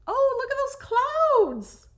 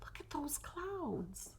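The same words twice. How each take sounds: First: High, loud, slow burst of delight; delighted exclaim. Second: Slow, hushed awed whisper. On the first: Crafter spotting lovely cloud drawings, delighted and loud. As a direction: let the clouds thrill you out loud. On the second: Crafter showing viewers the clouds, hushed whisper. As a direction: murmur it like a secret delight. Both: Real, not acted.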